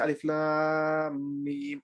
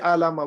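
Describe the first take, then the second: First: Each letter is spoken by its full name. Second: The letters are blended into one short word. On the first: The speaker calls it right. "we say alif lam mim" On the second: The speaker calls it wrong. "we don't say alama"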